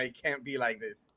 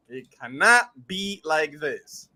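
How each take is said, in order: First: Low, soft disbelief; quiet, falling reaction; retold dismay. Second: CANNOT spelt out firmly in full; insistent retold disbelief, stress on "cannot"; emphatic repeat. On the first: Retold reaction, said then re-said emphatically. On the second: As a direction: lean hard on "cannot".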